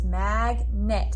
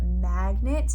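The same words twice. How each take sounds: First: Magnet split into mag and net, slowly; syllables split apart. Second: Said in the usual way. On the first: Shown as a demonstration. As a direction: scoop out each syllable of magnet. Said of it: "we scooped the syllables". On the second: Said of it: "I wrote magnet".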